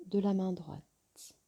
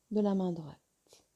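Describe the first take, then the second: No difference in how they are said.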